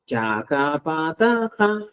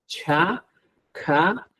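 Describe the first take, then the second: First: "chacapataja" slow and even, no breath after ch, k, p, t; plain unaspirated stops. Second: "chacapataja" slow, each ch, k, p, t followed by a puff of air; aspirated stops. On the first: Teacher repeats the simple version for students. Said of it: "Otra vez". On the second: Teacher shows students the aspirated contrast. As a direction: blow out "chacapataja" slowly with breath after every stop. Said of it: "como si estaría soplando". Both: Shown as a demonstration.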